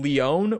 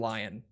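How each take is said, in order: First: It sounds like lee-on. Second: It sounds like the word lion. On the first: English speakers would not say it this way. "We wouldn't say Leon" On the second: English speakers all say it this way. "we all say Arcane Lion"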